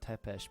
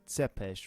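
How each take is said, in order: First: The name starts with a plain T sound. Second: The name starts with a TS sound. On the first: The speaker calls it wrong. "rather than Tepesh" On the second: The speaker calls it right. "I should be saying Tsepesh"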